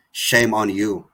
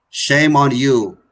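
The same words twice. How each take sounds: First: Said in the usual way. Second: Slow it right down and drive Shame home; slow emphatic rebuke. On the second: Real, not acted. Activist condemning online deniers, slow heavy emphatic rebuke. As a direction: Shame on you. drawn out slowly, each word hammered. Repeats condemnation, second time harder.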